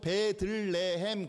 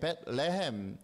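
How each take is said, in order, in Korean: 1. 이 이름은 네 음절로 발음해요. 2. 이 이름은 세 음절로 발음해요. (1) "발음하기 쉽게 하려고 베들레헴 그러는 거지" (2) "사실은 벳레헴이에요"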